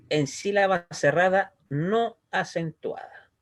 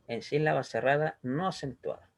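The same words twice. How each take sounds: First: Slow rule read with weight on no; slow, deliberate rule. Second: Said in the usual way. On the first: Shown as a demonstration. Teacher slowly stating the grammar rule to the class. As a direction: lay the rule out slowly for students. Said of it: "el kamat es katan, es decir, O". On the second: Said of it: "¿Ya?".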